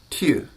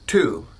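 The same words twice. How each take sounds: First: The vowel is a rounded, French-style front vowel. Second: The vowel is a plain American-style oo vowel. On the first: "a French person might pronounce the syllable T U a little bit differently" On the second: "thinking of an American accent"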